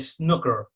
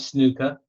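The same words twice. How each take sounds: First: It is said in an American accent. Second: It is said in the speaker's own non-American accent.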